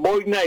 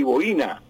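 First: High "boina" said BOI-na; two-syllable "boina" with weight up front; first-syllable stress. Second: "boina" said bo-I-na; three-syllable "boina", weight on the I; stress on I. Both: Shown as a demonstration. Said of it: "hay doble acentuación".

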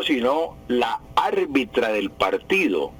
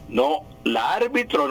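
First: Slow "la árbitra" with the -a ending clearly marked; correct form stressed. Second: "la árbitro" said as the rejected masculine ending -o; wrong form named. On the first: Radio teacher to listeners, slowly giving the right "árbitra". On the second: Radio teacher to listeners, citing the wrong "la árbitro". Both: Shown as a demonstration.

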